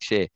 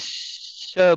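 First: The name sounds like the word 'share'. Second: The name does not sound like 'share'. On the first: This is how the person herself says the name. "but she says share, like share" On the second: This is the speaker's own pronunciation of the name. "I call her [name]"

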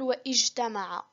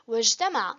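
First: A glottal stop is pronounced after the wa. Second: The wa runs straight into the j sound. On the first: The speaker calls it wrong. "لم ننطق هنا الألف، لم نقل واجتمع" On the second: The speaker calls it right. "قلنا واجتمع"

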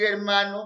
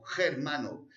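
First: The h is silent; it starts with a vowel. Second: The h is pronounced as a throaty j sound. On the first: "En lugar de decir hermano" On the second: "vamos a decir germano"

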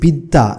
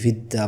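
First: The word begins with a b sound. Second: The word begins with a v sound. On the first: This is how it is said today. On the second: This is how it was said in the past.

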